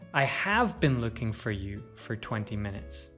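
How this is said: The stress is on the word have. It answers a doubt that the looking happened. "If we stress have"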